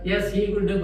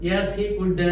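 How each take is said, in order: Both takes have the same delivery.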